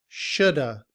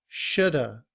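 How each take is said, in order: Both takes have the same delivery.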